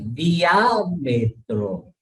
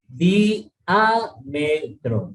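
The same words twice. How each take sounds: First: The i and a glide together in one syllable. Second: The i and a fall in separate syllables. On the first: The speaker calls it right. "hay un diptongo ahí" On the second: The speaker calls it wrong. "mucha gente lo separa"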